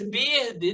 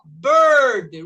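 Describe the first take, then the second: First: "bird" as "beer-dee", with an I and tapped R; wrong spelled-out vowel. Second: "Bird" loud, with a long "er" in the middle; correct R-controlled vowel. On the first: Teacher showing students the mistake, "bird" said as "beer-dee". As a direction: mispronounce "bird" as "bir-dee", vowel as written. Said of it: "não". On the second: Teacher modelling the right way, loud "Bird" with an "er" sound. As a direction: say "Bird" as "berd", R colouring the vowel. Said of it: "nós falamos er, mesmo som". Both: Shown as a demonstration.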